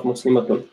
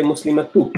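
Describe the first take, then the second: First: Muslimatun closed with an audible "un"; heavy ending. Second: Muslimatu ending on an open "u", no n; light ending. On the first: Teacher contrasting the feminine heavy version, "un" ending. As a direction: sound the final n of muslimatun. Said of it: "if I have to say the heavy version". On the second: Teacher giving the feminine light version, open "u" ending. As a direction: leave the n off the end of muslimatu. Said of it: "make a feminine light version". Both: Shown as a demonstration.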